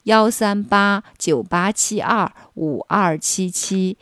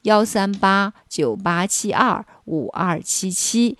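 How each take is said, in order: The two takes are said the same way.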